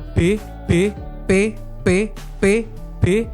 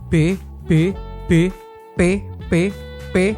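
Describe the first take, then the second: First: The B and P sounds hit with harsh bursts. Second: The B and P sounds are clean, without bursts. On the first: The speaker calls it wrong. "kalau ini si pop filternya aku ilangin, ... pasti suaranya plek plek plek gitu" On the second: The speaker calls it right. "Ini kan ini kan pakai pop filter"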